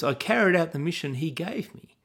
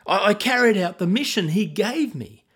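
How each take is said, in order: First: "carried" leaned on with a questioning rise, lightly mocking; quoting Saul's excuse. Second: Defensive insisting. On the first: Shown as a demonstration. Preacher replaying Saul's excuse to listeners, lightly mocking rise. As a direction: hold up the excuse for the congregation to hear. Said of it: "Do you notice the way Saul says". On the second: A narrator's reading. Saul justifying himself to Samuel, insistent and raised. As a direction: stammer the excuse with rising defensiveness. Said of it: "Saul insisted".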